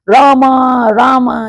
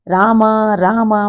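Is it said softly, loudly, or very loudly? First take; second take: very loudly; softly. First: It is said very loudly, like shouting. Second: It is said softly and quietly.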